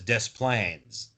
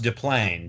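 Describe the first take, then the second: First: The S in the first part is pronounced. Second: The S in the first part is silent. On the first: This is how the people who live there say it. "everyone there pronounces it as Des Plaines" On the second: This follows the French origin of the name. "It's a French name, so the S is silent"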